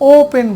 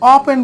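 First: The first vowel is a rounded 'oh' sound. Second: The first vowel is a short 'aw' sound. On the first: The speaker calls it right. "এটা ও পেন বলি" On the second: The speaker calls it wrong. "অ পেন বলি না"

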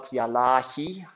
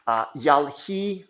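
First: The middle vowel is pronounced. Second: The middle vowel is dropped. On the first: The speaker calls it wrong. "not yalahi" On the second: The speaker calls it right. "the middle one is the one that usually goes away"

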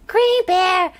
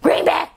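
First: The name is said in a friendly, kind tone. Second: The name is said in a mean, harsh tone. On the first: The speaker is greeting the person kindly. The speaker calls it right. "in general, speaking, you say" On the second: The speaker is scolding or insulting the person. The speaker calls it wrong. "Like that, like all mean"

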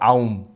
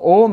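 First: A and U are sounded separately before M. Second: A and U merge into one O sound. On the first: The speaker calls it wrong. "not Aum. Not A-U-M" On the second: The speaker calls it right. "So Aum is the correct pronunciation"

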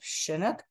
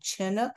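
First: The word begins with a soft sh sound. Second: The word begins with a hard ch sound. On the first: The speaker calls it wrong. "rather than a sh sound" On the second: The speaker calls it right. "with a hard CH sound, like in chin or chipmunk or church"

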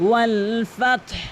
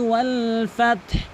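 The two takes are said the same way.

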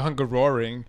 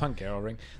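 First: The roar part is strongly emphasized, like a lion. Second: The roar part is said plainly, without emphasis. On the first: "emphasizing the roar like a lion" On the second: "It's Hungaroring"

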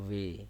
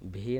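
First: The v is made with lower lip on teeth. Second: The v is made with both lips together. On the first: The speaker calls it right. "একটু আলতোভাবে নিচের ঠোঁটটা উপরের দাঁতের সাথে লাগায় বলবো ভি" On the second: The speaker calls it wrong. "ভি না বলে"

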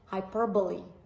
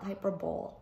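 First: It has four syllables, ending like 'lee'. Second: It has three syllables, ending like 'bowl'. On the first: The speaker calls it right. "it's hyperbole" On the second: The speaker calls it wrong. "it's not hyperbole"

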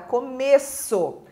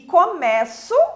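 First: The stressed O is pronounced as a closed vowel. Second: The stressed O is pronounced as an open vowel. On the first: It is a noun meaning beginning. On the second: It is a form of the verb meaning to begin.

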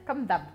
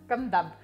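Both takes have the same delivery.

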